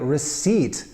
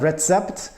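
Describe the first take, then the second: First: The word is said as receipt. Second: The word is said as recept. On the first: The speaker calls it right. "you get a receipt" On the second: The speaker calls it wrong. "not a recept"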